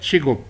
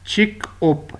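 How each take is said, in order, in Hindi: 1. अक्षर आपस में जुड़ जाते हैं, g की आवाज़ के साथ। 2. अक्षर अलग-अलग रहते हैं, k की आवाज़ के साथ। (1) "प्रोनाउंसिएशन इसकी है चिगुप" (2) "ये लफ्ज़ है चिक ओप"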